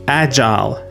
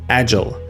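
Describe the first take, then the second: First: The second syllable has a long 'eye' vowel. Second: The second syllable has a short vowel. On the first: "long I sound like the I in while or mile" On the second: "with a shorter I sound"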